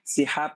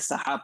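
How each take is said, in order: First: The first vowel is an 'i' sound. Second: The first vowel is an 'a' sound. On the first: The speaker calls it wrong. "सिहाब के बजाय" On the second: The speaker calls it right. "सहाब पढ़ेंगे, सीन पर फ़तहा"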